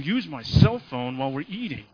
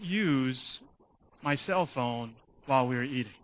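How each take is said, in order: First: It is said in a stern, forceful tone. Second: It is said in a calm, plain tone. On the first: It is a firm order that gets through. "Tone of voice changes" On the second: It is a mild request that may be ignored. "He may get 5% of that"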